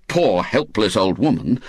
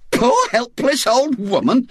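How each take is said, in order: First: Said in the usual way. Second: Much higher, affronted rising question; indignant echo. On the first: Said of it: "the smile dropped from her face". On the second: Acted. Aunt Jo repeats the insult about herself, indignant. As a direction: throw the insult back in disbelief. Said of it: "she echoed indignantly".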